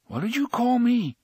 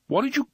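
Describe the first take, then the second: First: High, louder indignant question. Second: High indignant start. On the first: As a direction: demand it, outraged. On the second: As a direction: cut off mid-outrage. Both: A narrator's reading. Eddie offended.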